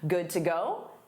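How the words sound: The pitch rises at the end. It asks whether someone is ready. "a rising intonation marks a question"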